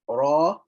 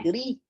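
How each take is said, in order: First: The letter is said with a thick, full sound. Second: The letter is said with a thin, light sound.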